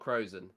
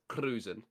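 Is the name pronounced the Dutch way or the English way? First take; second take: English; Dutch. First: The name is pronounced with English sounds. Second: The name is pronounced with Dutch sounds. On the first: The speaker calls it wrong. "it's not Krozen" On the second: The speaker calls it right. "the way you'd say it if you were Dutch"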